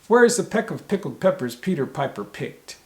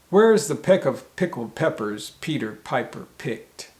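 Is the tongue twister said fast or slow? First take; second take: fast; slow. First: It is said at a faster, quicker pace. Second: It is said at a slower, normal pace.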